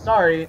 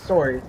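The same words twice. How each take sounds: First: It is said with an American accent. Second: It is said with a Canadian accent. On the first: "Americans speak it as sorry" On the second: "he speaks it as sorry"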